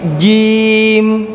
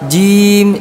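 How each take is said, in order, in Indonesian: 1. Konsonan itu diucapkan dengan kuat dan tegas. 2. Konsonan itu diucapkan dengan lemah dan setengah-setengah. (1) "tapi jim" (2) "jangan setengah-setengah, jangan jim"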